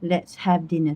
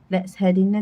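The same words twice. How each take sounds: First: It is said with the mouth opened wide. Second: It is said with the mouth barely opened. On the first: The speaker calls it right. "It has to be let's have" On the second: The speaker calls it wrong. "tak jadi"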